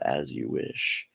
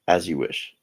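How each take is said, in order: First: It is said nicely and slowly. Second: It is said quickly and curtly.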